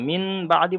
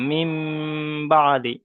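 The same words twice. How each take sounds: First: "মিন" ending in a held n before "বাদি"; wrong reading demonstrated. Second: "মিম" ending in a long hummed m before "বাদি"; change the n to m and hold "মিম" nasally, then "বাদি"; correct ghunnah reading. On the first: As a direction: keep an n sound in "মিন", unchanged before "বাদি". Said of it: "বললে ভুল হবে". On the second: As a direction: hum through "মিম", then release into "বাদি". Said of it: "মিম, মিমটা ধরতে হবে". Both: Shown as a demonstration.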